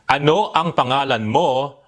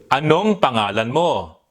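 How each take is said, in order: First: Ano and ang are said as two full words. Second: Ano and ang merge into one word, anong. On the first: "instead of saying the whole word like this" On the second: "You can simply say"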